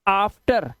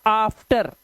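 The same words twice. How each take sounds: The two takes are said the same way.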